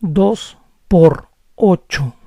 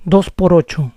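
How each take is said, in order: First: Dos por ocho said slowly, words apart. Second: Faster. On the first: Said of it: "If I say it slowly". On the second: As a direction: run Dos por ocho together quickly. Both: Shown as a demonstration.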